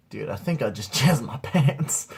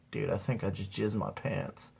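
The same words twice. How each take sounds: First: Said out plainly with a laugh breaking in; repeated stoned confession. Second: Low, softer, dazed admission; quiet stoned confession. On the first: Stoned teen repeating it for his buddy, amused. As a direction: repeat it at normal volume, half laughing. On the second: Stoned teen confessing to his buddy, quietly. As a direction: murmur it after a sigh, dazed. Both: Acted.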